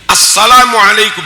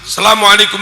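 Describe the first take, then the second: First: The opening is a merged 'as' sound. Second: The opening is not a merged 'as' sound. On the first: The speaker calls it right. "Harusnya dibaca as. ... harusnya begitu" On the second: The speaker calls it wrong. "Nggak sah. Itu al ketemu sin"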